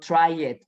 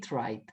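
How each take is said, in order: First: The ending is said as an extra syllable. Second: The ending blends in without an extra syllable. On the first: The speaker calls it wrong. "Tampoco digo try it" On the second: The speaker calls it right. "Entonces suena cried y tried"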